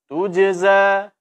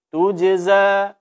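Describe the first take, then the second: The two takes are said the same way.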